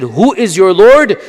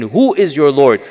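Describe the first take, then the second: First: "Who is your Lord?" asked higher, louder and slower, demanding; challenging question. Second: Said in the usual way. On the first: Retold or imitated. Lecturer voicing the doubters' challenge to the Prophet, louder and demanding. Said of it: "a response when they said". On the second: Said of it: "the response to their question".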